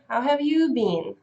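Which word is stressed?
you. The stress falls on you. The same question is turned back on the asker.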